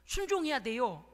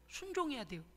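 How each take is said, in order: First: 순종해야 stressed with a falling, firm push; firm preaching emphasis on 순종해야; emphatic. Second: 순종해야 said again, softer and gentle, falling; soft follow-up on 순종해야; softer repeat. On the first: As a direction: hit 순종해야 hard like a command. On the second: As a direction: echo 순종해야 quietly to let it sink in. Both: Real, not acted. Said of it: "repeated exhortation".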